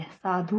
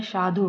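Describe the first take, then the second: First: "साधु" ending in long "dhoo"; wrong long final u. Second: "साधु" ending in short "dhu"; correct short final u. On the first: Teacher rejects the mistake, long-u "साधु". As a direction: stretch धु in "साधु". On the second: Teacher gives the correction, short-u "साधु". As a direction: keep धु quick in "साधु". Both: Shown as a demonstration. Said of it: "छोटे ऊ की मात्रा".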